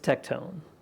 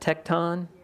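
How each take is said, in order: First: The ending does not sound like Neutron. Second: The ending sounds like the end of Neutron. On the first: The speaker calls it right. "but it's it's tectone" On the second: The speaker calls it wrong. "I kind of like to pronounce it tecton. It's like Megatron, Neutron"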